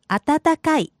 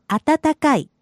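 The two takes are said the same way.

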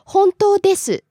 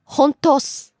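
First: The full ending 'desu' is pronounced. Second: The ending is shortened to just 'su'. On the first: "Instead of saying desu" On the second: "they drop de and just add su"

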